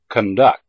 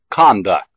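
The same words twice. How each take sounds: First: The stress is on the second syllable. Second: The stress is on the first syllable. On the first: It is used as a verb. "the second syllable of the verb has primary stress" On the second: It is used as a noun. "the first syllable of the noun has primary stress"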